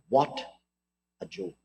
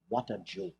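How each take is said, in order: First: A hint of condescending dismissal; mock condescension. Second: Mock condescension. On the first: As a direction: lower and much softer, sneering. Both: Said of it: "a lofty air of condescension".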